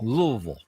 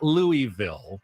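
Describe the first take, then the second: First: The name is mumbled with little tongue movement. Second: The name is said with every syllable clearly enunciated. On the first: The speaker calls it right. "almost mumble it" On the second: The speaker calls it wrong. "Not Louisville"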